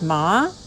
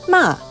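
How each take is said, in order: First: The pitch rises through the syllable. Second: The pitch falls through the syllable. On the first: It means linen. "Ma with rising pitch means linen" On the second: It means scolding. "Ma with a falling pitch means scolding"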